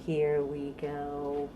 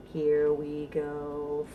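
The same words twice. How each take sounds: The two takes are said the same way.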